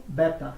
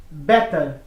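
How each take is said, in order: First: British accent, better with crisp T and no R; British English, crisp T, dropped R. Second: American accent, better as "bedder". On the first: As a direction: say better as "bet-tah". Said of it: "britânico". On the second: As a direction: say better with a flapped D-like T. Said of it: "No inglês americano". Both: Shown as a demonstration.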